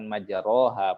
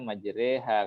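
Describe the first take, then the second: First: The vowel after the r sounds like a. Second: The vowel after the r sounds like e. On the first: This is how the word is written. "kenapa bukan majroha" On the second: This is how the word is actually recited. "membacanya majreha"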